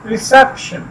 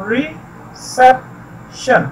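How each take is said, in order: First: reception said whole, SEP stressed; re-SEP-tion with a firm middle syllable in reception. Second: reception in three slow pieces with pauses; slow, syllable-by-syllable reception; split into syllables. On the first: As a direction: join up reception and hit SEP. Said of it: "stress किया जाता है वो सेप है". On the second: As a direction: sound out reception as re, cep, tion. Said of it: "के syllables देखते हैं". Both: Shown as a demonstration.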